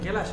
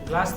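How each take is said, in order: First: A short vowel is inserted between g and l. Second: The g and l form a cluster. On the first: "যেমন গেলাস হলো" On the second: "গ্লাস থেকে"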